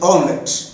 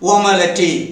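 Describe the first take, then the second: First: It is said in two short syllables. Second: It is said in three syllables, ending in a vowel. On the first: The speaker calls it right. "இதை வந்து எப்படி உச்சரிக்கணும் அப்படின்னா" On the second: The speaker calls it wrong. "அதுதான் ஆங்கிலத்தை நம்ம உச்சரிக்கக்கூடிய நம்ம தலை விதி"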